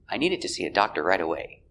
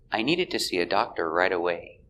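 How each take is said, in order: First: The sentence is said at normal speed. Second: The sentence is said more slowly.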